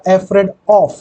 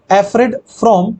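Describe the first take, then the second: First: "Afraid of", with "of" set out clearly; correct preposition demonstrated. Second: "afraid from", drawn out to expose "from"; wrong preposition demonstrated. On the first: Teacher giving students the correction, "Afraid of" said deliberately. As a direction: say "Afraid of" as the answer, landing on "of". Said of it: "हमेशा fix preposition of". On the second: Teacher questioning students on the error, "afraid from" said slowly and deliberately. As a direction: say "afraid from" slowly, setting out the word "from". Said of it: "होगा क्या". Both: Shown as a demonstration.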